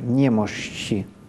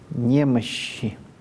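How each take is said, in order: First: The middle consonant starts as 'sh' and ends as 'ch'. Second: The middle consonant is a long soft 'sh'. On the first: This is the church reading style. "чтобы оно начиналось как «ш», а заканчивалось как «ч»" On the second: This is the standard literary style. "вполне подойдет это долгое, мягкое «щ»"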